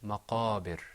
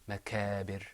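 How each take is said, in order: First: The middle consonant is made deep in the throat. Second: The middle consonant is made further forward. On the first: The speaker calls it right. "I want to hear maqabir" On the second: The speaker calls it wrong. "not makabir"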